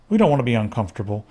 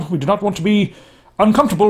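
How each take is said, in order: First: It is said in the speaker's ordinary voice. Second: It is said in a put-on official-sounding accent.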